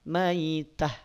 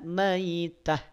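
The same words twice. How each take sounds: The two takes are said the same way.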